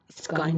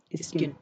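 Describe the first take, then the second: First: स्काइन with an eye vowel; long I sound. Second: स्किन with a short ih; short I sound. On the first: Teacher rejecting a misreading, स्काइन with long i. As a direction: say स्काइन to rhyme with line. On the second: Teacher showing short vowels, स्किन with ih. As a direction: say स्किन with i as in sit. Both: Shown as a demonstration. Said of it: "स्काइन नहीं होगा".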